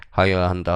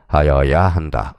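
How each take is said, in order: First: Said in the usual way. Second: 하여야 한다 loud, slow and stretched; emphatic answer. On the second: Shown as a demonstration. Teacher confirms the mandatory rule, 하여야 한다 slow and forceful. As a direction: land hard on 하여야 한다, taking your time.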